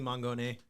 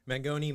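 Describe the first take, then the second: First: The name ends with an 'ay' sound. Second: The name ends with an 'ee' sound.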